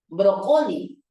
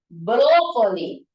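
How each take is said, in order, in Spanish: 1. El acento está en la segunda sílaba. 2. El acento está en la primera sílaba. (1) "como si fuera grave" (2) "Primero como esdrújulo"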